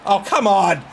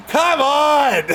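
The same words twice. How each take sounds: First: Said in the usual way. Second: Exasperated. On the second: Real, not acted. Louder higher exasperation.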